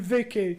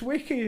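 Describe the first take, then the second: First: The name begins with a V sound. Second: The name begins with a W sound. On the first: "do you mean Vicky?" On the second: "You just don't pronounce your V's"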